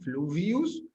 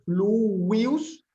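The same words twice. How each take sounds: First: The middle consonant sounds like English v. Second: The middle consonant sounds like English w. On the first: "como la V italiana, francesa, portuguesa, v, o inglesa" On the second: "la pronunciación más antigua es fluvius"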